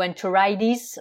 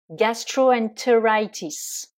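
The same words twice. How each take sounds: First: American "enteritis" with the T softened to a D; American accent. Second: Said in the usual way. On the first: Shown as a demonstration. Teacher showing learners the American variant, American accent. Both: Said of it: "si on le prononce avec l'accent américain".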